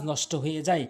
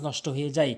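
No difference in how they are said.

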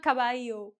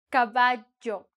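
First: Caballo with LL softened to a Y; wrong caballo. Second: Caballo with LL as a firm J; correct caballo. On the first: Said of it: "because it's not an I". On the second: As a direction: say caballo as "ka-ba-jo", clearly split. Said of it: "you have to pronounce this one". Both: Shown as a demonstration.

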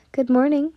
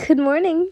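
First: Said in the usual way. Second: Beaming greeting. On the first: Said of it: "You smiled". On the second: A narrator's reading. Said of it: "Tanjiro beamed".

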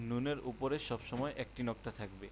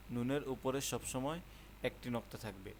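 No difference in how they are said.

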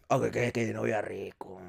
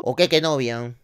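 First: Lower, softer, slow savouring murmur of qué novia rico. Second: Said in the usual way. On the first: Shown as a demonstration. Host tasting stolen cake, murmuring with relish. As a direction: drag it out low as if tasting it. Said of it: "repeat savoured". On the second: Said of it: "repeat with different delivery".

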